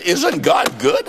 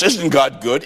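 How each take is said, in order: First: Preaching shout. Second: Said in the usual way. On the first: Real, not acted. Preacher rouses the congregation: "Isn't God good?" shouted slowly. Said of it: "repeated to the crowd". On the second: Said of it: "Isn't God good? repeated louder".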